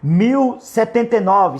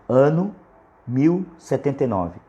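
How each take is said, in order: First: It is said at normal speed. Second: It is said very slowly.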